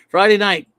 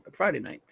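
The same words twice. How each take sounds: First: Friday punched loud and proud. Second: Quiet. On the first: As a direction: belt out Friday like a hype announcer. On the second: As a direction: drop it down, almost to yourself. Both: Acted. Correcting Saturday to Friday.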